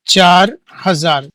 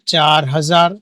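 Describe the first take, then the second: First: चार हजार said slowly, each word given weight; emphatic teacher answer to her own question; slow emphatic repeat. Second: Said in the usual way. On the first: Shown as a demonstration. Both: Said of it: "क्या पढ़ेंगे?".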